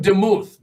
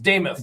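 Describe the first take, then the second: First: The name does not rhyme with Namath. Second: The name rhymes with Namath. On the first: The speaker calls it wrong. "looks like Demuth, but it's" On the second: The speaker calls it right. "like Namath"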